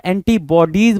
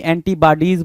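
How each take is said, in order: First: एंटीबॉडीज said as en-ti-bo-dees, with an open o in bo; correct pronunciation. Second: एंटीबॉडीज said as en-ti-ba-dees, with a flat a in ba; wrong pronunciation. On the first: Teacher to spelling students, modelling the right एंटीबॉडीज with bo. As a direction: say एंटीबॉडीज with bo, not ba. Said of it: "आपको पता है एंटीबॉडीज बोलते हैं". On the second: Teacher to spelling students, showing the mistaken एंटीबॉडीज with ba. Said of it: "ना कि एंटीबॉडीज बोलते हैं". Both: Shown as a demonstration.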